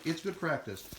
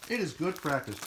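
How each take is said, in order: First: Said in the usual way. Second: "It is" pushed up firm, with "It" hit hardest; stress on is. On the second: Real, not acted. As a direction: insist on "It is", then fall.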